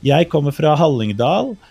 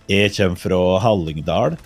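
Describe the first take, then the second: First: It is spoken in standard Norwegian pronunciation. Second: It is spoken in a rural Hallingdal dialect. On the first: "If I said that in bokmål, which is the more standard" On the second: "That, that's closer to my dialect"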